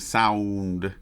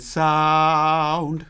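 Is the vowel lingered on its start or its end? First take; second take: end; start. First: The vowel lingers on its second part. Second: The vowel lingers on its first part.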